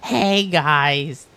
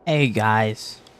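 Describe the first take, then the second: First: The greeting sounds cheerful and upbeat. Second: The greeting sounds sad and low.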